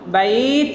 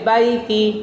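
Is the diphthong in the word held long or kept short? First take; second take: long; short. First: The word stops, its vowel stretched one beat. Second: The word runs on quickly with a final vowel. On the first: The reading pauses on this word. "আমি শেষ অক্ষরে ওয়াকফ করেছি" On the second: The reading continues without pausing. "এখন যদি ওয়াকফ না করি হবে বাইতি"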